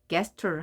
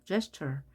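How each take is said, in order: First: The word begins with a hard g sound. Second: The word begins with a soft j sound. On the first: The speaker calls it wrong. "이거를 gesture 하면 안 된다는 겁니다" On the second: The speaker calls it right. "제, 제, 이렇게 발음이 되, 기호가 돼 있죠? ... 이렇게 읽어야 되죠"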